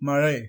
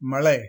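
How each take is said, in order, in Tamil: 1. நடுவிலுள்ள மெய்யெழுத்து நாக்கை மடித்து ஒலிக்கும் zh ஒலி. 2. நடுவிலுள்ள மெய்யெழுத்து சாதாரண l ஒலி. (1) "சரியான உச்சரிப்பு" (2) "தவறு"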